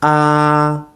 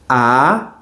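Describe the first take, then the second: First: The vowel is said with the first tone. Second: The vowel is said with the second tone. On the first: "I'm going to do all the vowels with the first tone" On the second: "Second tone"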